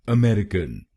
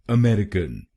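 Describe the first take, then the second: The two takes are said the same way.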